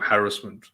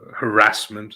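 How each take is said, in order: First: It is pronounced the British way. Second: It is pronounced the American way.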